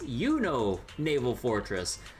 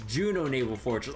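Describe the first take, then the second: First: The name begins with a Y sound. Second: The name begins with a J sound. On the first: The speaker calls it wrong. "oh, that's Yuno Naval Fortress" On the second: The speaker calls it right. "No, no, it's Juno Naval Fortress"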